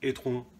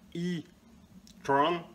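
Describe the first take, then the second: First: The E is pronounced the French way. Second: The E is pronounced the English way. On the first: The speaker calls it wrong. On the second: The speaker calls it right.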